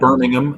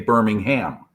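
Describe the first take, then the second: First: The h sound in the middle is silent. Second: The h sound in the middle is pronounced. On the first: This is how people in the UK say it. "you say" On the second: This is how the speaker's own people say it. "we pronounce that H in there"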